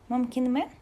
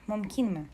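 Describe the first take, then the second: First: The syllable 'kin' is not stressed. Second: The syllable 'kin' is stressed. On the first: The speaker calls it wrong. "неправильное ударение" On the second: The speaker calls it right. "на «и» – «кин» ударение"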